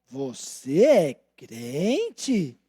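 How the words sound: It is asked in a doubting, suspicious tone.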